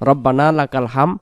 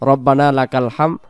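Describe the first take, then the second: No difference in how they are said.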